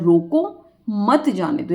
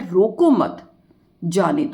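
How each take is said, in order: First: The pause comes right after 'roko'. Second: The pause comes right after 'mat'.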